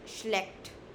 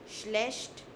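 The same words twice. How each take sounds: First: The ch does not sound like sh. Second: The ch sounds like the sh in shop.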